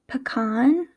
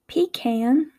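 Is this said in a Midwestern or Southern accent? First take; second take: Midwestern; Southern. First: Spoken in a Midwestern American accent. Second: Spoken in a Southern American accent. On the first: "in my Midwestern accent, I would say" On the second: "in the Southern accent, it would be"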